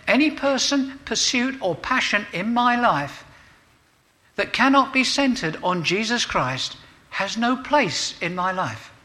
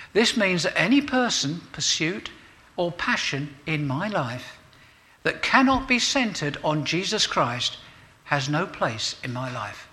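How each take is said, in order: First: Much higher and louder, every phrase driven hard; emphatic restatement. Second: Said in the usual way. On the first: Shown as a demonstration. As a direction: preach it again with full force, stressing "cannot". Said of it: "I'll say it again".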